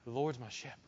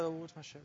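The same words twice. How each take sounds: First: It is said boldly, with proud confidence. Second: It is said offhandedly, without much conviction. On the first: The speaker fully believes and celebrates the statement. The speaker calls it right. "No. Like a proud child who is watching their parent do something" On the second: The speaker is not really committed to the statement. The speaker calls it wrong. "Don't just walk around, yeah"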